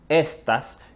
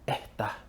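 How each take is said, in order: First: The s sounds are fully pronounced. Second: The s is replaced by a breathy h sound. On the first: "que es la forma estándar de pronunciar esa palabra" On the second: "Escuchas eh, la aspiración"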